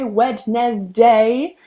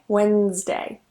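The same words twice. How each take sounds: First: The D is pronounced, giving three syllables. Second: The D is silent, giving two syllables. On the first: The speaker calls it wrong. "Notice that I don't say Wednesday" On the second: The speaker calls it right. "Here the D is silent and it's only two syllables"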